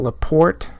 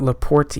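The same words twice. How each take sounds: First: Said in the usual way. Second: "Laporte" tried with a different ending; alternative pronunciation. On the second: Shown as a demonstration. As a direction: try "Laporte" another way, questioningly. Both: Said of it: "Or is it Laporte?".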